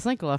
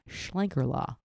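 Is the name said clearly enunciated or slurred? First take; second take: slurred; clearly enunciated. First: The name is said loosely and oddly. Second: The name is said with every syllable crisp. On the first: The speaker calls it wrong. "I said that weird" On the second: The speaker calls it right. "You really have to enunciate when you say it"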